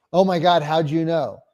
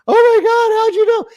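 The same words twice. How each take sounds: First: Said in the usual way. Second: Much higher, louder mock-amazed squeal; squeaky amazed seller. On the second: Mocking the seller's amazed reply.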